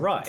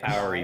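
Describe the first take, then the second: First: The word ends with a 'rye' sound. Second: The word ends with an 'ee' sound. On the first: The speaker calls it right. "It's clearly awry" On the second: The speaker calls it wrong. "I always say Auri for some reason"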